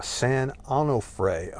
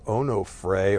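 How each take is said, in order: First: "Onofre" said slowly as AH-no-fray; variant pronunciation. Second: "Onofre" said slowly as OH-no-fray; variant pronunciation. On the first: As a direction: open "ah" at the start of "Onofre". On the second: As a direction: round "oh" at the start of "Onofre". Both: Shown as a demonstration. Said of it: "don't know how the fuck you say it".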